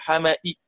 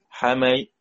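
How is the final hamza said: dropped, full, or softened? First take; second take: full; softened. First: The final hamza is fully said with a faint i. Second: The final hamza is softened toward a y sound. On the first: The speaker calls it wrong. "لازم نحقق الهمزة" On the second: The speaker calls it right. "تسهيل بين بين مع جزء من الكسرة"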